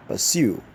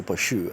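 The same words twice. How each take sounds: First: Pursue said puh-SOO, stress on the second syllable; correct pronunciation. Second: Pursue said PAW-shoo, a mock wrong form; wrong Nigerian version. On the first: Teacher modelling the right form after the wrong one. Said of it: "the word is rendered as". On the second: Teacher mocking the common Nigerian mispronunciation. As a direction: imitate the wrong pursue with a sh sound. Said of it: "pursue is completely wrong". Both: Shown as a demonstration.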